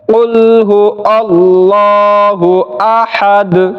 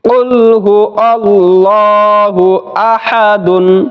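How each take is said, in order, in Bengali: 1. শেষ শব্দটি 'd' এর উপর সংক্ষেপে থেমে যায়। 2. শেষ শব্দটি পূর্ণ '-dun' দিয়ে শেষ হয়।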